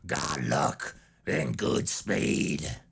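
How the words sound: It is said in an intense Southern redneck voice. "So let's do it in the Dixie Dave voice"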